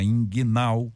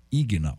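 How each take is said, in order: First: "inguinal" with a nasal N in the first syllable. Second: "ignal" with no N before the g; ignal without N. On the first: Host naming the hernia type, "inguinal" with the N. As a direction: say "inguinal", sounding the N before the g. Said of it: "eu gosto do N aí". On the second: Host correcting his own word, "ignal" without the N. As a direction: say "ignal", opening on a plain i. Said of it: "Aliás, é ignal". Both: Shown as a demonstration.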